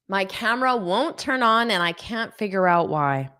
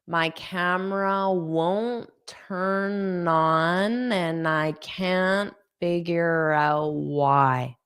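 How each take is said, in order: First: The sentence is spoken at a fast pace. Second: The sentence is spoken at a slow pace. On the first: "I'll say it fast" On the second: "I'll say it slowly"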